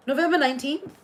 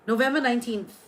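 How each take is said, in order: First: November nineteenth? lifted higher into a rising question; surprised echo. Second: Said in the usual way. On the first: Real, not acted. Echoing a viewer's birthday in disbelief, surprised rising question. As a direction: check it back in surprise.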